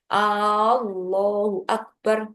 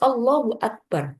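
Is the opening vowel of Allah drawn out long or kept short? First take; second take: long; short. First: The opening vowel of Allah is drawn out long. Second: The opening vowel of Allah is kept short. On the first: It asks whether God is great. The speaker calls it wrong. "Tidak boleh memanjangkan huruf hamzah pada kalimat jalalah" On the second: It states that God is great. The speaker calls it right. "Maka harus Allahu Akbar"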